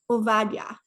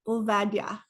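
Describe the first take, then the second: No difference in how they are said.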